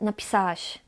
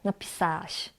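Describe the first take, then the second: First: The 'ł' sound is dropped. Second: The same.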